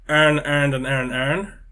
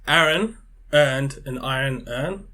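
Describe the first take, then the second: First: Aaron, iron and urn all sound like earn. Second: Aaron, iron and urn each sound distinct.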